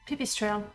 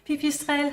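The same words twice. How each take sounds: First: The name is said with an English accent. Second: The name is said with a French accent. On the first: "It works with an English accent as well" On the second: "I decided to say that with a French accent"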